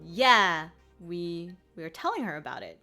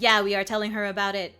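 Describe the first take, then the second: First: It is said with ordinary English rhythm. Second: It is said with an even French rhythm.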